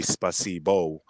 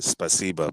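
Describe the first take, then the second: First: Spasibo with a full final O; spelling pronunciation. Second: Spasiba ending in "bah"; Russian spasiba, last vowel "ah"; spoken pronunciation. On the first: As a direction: say spasibo as it is written, ending "boh". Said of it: "when you actually read it in letters". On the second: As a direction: say spasiba with a final open A. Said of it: "so you pronounce it spasiba". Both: Shown as a demonstration.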